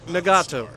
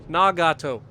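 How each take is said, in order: First: It is said as one smooth English word. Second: It is said as three separate, even syllables. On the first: "In English, it is Nagato" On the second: "it in Japanese is Nagato. It's three separate syllables"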